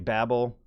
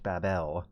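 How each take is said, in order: First: It is said in an American accent. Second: It is said in an ancient Hebrew-like way. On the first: The speaker calls it wrong. "modern Americans say Babel" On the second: The speaker calls it right. "probably closer to to the proper uh, Mesopotamian or ancient Hebrew"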